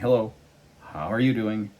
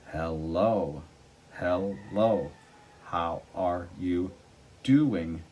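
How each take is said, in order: First: The syllables are run together smoothly. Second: Each syllable is said separately and distinctly.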